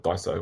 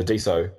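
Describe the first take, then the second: First: Daiso said as DIE-so; childhood pronunciation. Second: Diso said as DEE-so; standard pronunciation. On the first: Interviewer recalls his childhood name for it, Daiso as DIE-so. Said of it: "I called it Daiso when I was young". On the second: Interviewer names a remembered system, Diso as DEE-so. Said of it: "well, I called it Daiso". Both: Shown as a demonstration.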